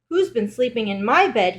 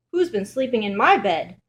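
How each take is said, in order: First: Lightly voiced little bear; a hint of bear cub, swooping up on "my"; Baby Bear. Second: Lightly voiced mother bear; a hint of mama bear, stressing "my". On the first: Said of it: "Baby Bear looks at his bed". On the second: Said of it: "says Mother Bear". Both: A narrator's reading.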